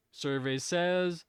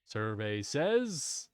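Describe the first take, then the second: First: Drawn-out, higher game show host call; slow, high host-style buildup; game show host reveal. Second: Very slow, low drawn-out host call; slow, low host-style buildup; lower game show host reveal. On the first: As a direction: stretch it out like announcing the board. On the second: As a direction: drag it out low for suspense. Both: Pretend. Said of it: "sitting here in the Family Feud".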